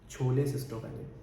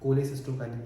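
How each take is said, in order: First: The word begins with an aspirated 'ch' sound. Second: The word begins with a plain 'k' sound. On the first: The speaker calls it wrong. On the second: The speaker calls it right.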